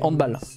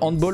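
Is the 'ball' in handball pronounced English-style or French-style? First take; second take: French-style; English-style. First: The ending sounds like the French word balle. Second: The ending sounds like the English word ball. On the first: The speaker calls it right. "mais en fait, non, c'est handball" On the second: The speaker calls it wrong. "j'ai trop l'habitude de dire handball"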